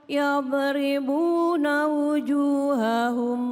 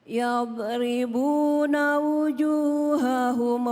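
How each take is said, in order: The two takes are said the same way.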